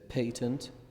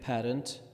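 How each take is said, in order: First: It is said with a British pronunciation. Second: It is said with an American pronunciation. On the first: "in British it's" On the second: "we say it uh, in American"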